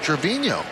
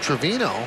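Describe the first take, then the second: First: The middle consonant is an ny sound. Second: The middle consonant is a plain n sound. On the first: This is how the player himself says his name. The speaker calls it right. "he said it's Trevino" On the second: This is how broadcasters had been saying the name. The speaker calls it wrong. "we've been calling him Trevino"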